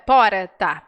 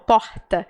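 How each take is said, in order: First: The R is a light tap of the tongue. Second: The R is a rough sound from the throat. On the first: This is how people from the south say it. "meus colegas aqui falam porta" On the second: This is how many other Brazilians say it. "é como se fosse J do espanhol"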